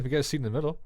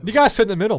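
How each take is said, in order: First: Said in the usual way. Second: Loud insistence. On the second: Real, not acted.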